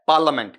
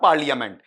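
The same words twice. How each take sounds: First: It is pronounced the standard English way. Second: It is pronounced the distorted Hindi way. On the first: The speaker calls it right. "ये क्या है पार्लियामेंट" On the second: The speaker calls it wrong. "This is not पार्लियामेंट"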